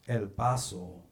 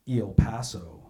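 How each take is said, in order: First: It is pronounced with Spanish vowels and sounds. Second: It is pronounced with English vowels and sounds. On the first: This is how the newscaster said it on air. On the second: This is how it is usually said in English. "instead of El Paso"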